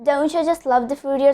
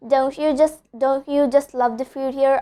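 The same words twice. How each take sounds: First: "Don't you" joined as doncha; assimilated "Don't you", one word doncha; linked words. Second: "Don't you" with separate words, a clear you; full "you" after "don't", no cha; unlinked words. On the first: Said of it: "I'm connecting don't and you". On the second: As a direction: keep "don't" and "you" apart. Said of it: "So instead of telling". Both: Shown as a demonstration.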